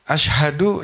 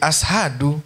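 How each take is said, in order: First: The middle consonant is a 'sh' sound. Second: The middle consonant is an 's' sound. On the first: The speaker calls it right. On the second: The speaker calls it wrong.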